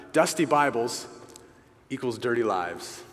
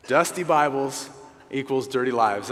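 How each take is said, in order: First: Dusty Bibles, pause, then equals dirty lives falling; split phrase, pause. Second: Dusty Bibles equals dirty lives said louder in one flow; firm punch line. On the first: Pastor to brothers, sharing a phrase with a deliberate pause. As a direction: pause after Bibles to let it land. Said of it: "I came across this phrase". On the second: Pastor to brothers, driving the phrase home, louder and firm. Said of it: "And I like that because". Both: Shown as a demonstration.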